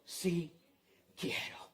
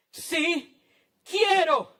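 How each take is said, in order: First: Very soft and low, pausing between words; hushed answer. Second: Raised, high and forceful, word by word; ringing declaration with a pause between words; emphatic shout. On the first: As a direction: quietly grant it, almost whispering. First quiet take of Jesus' answer. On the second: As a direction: proclaim it out loud to the crowd. Same answer repeated at full force. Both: Acted.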